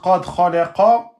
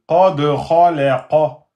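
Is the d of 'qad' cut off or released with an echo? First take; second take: cut off; echoed. First: The d is cut off with no echo. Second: The d is released with an audible echo. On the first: The speaker calls it wrong. "vous n'avez pas sorti la qalqala" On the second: The speaker calls it right. "il faut bien dire qad"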